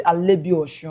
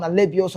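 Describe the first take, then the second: First: Alebiosu said with sh; corrected Yoruba pronunciation. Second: Alebiosu with a plain s; British-way pronunciation. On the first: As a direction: turn the s in Alebiosu to sh. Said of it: "They say". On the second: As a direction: say Alebiosu with s, not sh. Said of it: "You pr-, pronounce the, the, the British way". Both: Retold or imitated.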